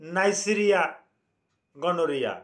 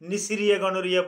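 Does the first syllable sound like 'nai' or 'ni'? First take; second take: nai; ni. First: The first syllable is said as 'nai'. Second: The first syllable is said as 'ni'. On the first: "জীবাণুটার নাম নাইসেরিয়া গনোরিয়া" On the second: "কেউ এটাকে উচ্চারণ করতে গিয়া নিসিরিয়া গনোরিয়া বলে, অসুবিধা নাই"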